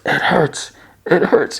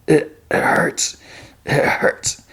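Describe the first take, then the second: First: High-pitched whimpering wail; mock crying. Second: Slow, halting whispered hurt; pained whisper. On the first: Parker left behind as she walks away, mock crying. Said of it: "and cries". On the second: Acted. Parker defeated, telling her it hurts, pained whisper. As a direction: whisper it haltingly through the pain. Defeated man saying he is in pain.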